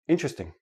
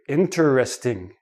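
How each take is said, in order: First: The word is reduced to three run-together syllables. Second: Each of the four syllables is said separately. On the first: This is ordinary everyday speech. "in everyday speech... it becomes three syllables" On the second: The speaker wants to emphasize the word. "they enunciate each syllable"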